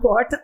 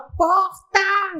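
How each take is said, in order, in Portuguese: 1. É falada com sotaque do interior do norte do Paraná. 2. É falada com sotaque do Rio de Janeiro. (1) "meus bebês advogados são de Maringá, então, e aí eles falam porta" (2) "começa a cantar carioca"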